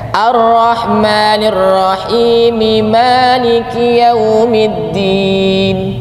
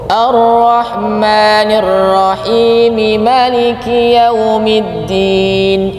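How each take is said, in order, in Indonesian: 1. Vokal pertama pada Maliki dibaca panjang. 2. Vokal pertama pada Maliki dibaca pendek. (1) "Kalau kita yang dibaca panjang" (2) "yang maknya dibaca pendek"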